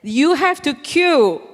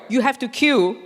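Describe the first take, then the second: First: Slow, firm, higher stern command. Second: Firm, falling command; stern voice. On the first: Telling the queue-jumper to queue, slow stern voice. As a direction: lay down the law, word by word. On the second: Repeating the order to the man, firm and stern. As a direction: say it flatly, like a rule. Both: Retold or imitated. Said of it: "So I put on my stern voice".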